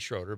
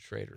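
First: The first vowel sounds like 'oh'. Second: The first vowel sounds like 'ay'. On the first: The speaker calls it wrong. "It looks like Schroeder" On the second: The speaker calls it right. "but you pronounce it Schrader"

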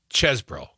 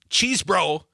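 First: The first syllable sounds like the word chess. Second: The first syllable sounds like the word cheese. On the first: The speaker calls it right. "it's ches bro" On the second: The speaker calls it wrong. "It's not cheese bro"

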